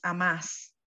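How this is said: It is said with Argentine stress placement. "En Argentina... Y es vos amás"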